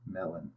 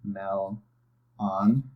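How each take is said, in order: First: "Melon" softer as one smooth word; blended word. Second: "Mel, on" as two separate syllables with a pause; careful teacher split; syllables separately. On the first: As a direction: glide "Melon" together quietly. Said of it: "Combine your syllables". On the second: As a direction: give "Mel" and "on" each their own beat. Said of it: "the pronunciation of each syllable". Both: Shown as a demonstration.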